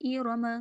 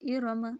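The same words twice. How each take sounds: No difference in how they are said.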